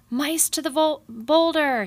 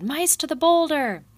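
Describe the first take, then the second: First: High, loud rallying bellow, stumbling on vol-. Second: Clean high, loud rallying bellow ending on boulder. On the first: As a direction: bellow the order, slip on vol- then hit boulder!. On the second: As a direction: call the retreat, boulder loud and falling. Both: A narrator's reading. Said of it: "he bellowed".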